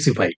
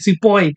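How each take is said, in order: First: The word ends with an 'ahee' sound. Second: The word ends with an 'oy' sound. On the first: "ये लोग सिपाही को ये लोग pronounce नहीं कर पाता था" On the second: "ये लोग बोलता था सिपॉय"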